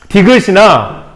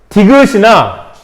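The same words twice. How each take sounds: Both takes have the same delivery.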